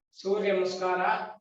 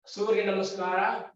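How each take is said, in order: Both takes have the same delivery.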